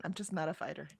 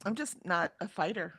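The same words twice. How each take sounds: First: Much softer, almost to herself; softly conceding it again; quiet repeat. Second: Said in the usual way. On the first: Real, not acted. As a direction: let it drop away quietly. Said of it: "I'm really not".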